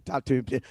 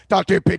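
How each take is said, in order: First: Said in the usual way. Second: Loud repeat. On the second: Acted. Scoffing at draft talk on the stream, shouted louder. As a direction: TOP ten pick, shouted and much louder.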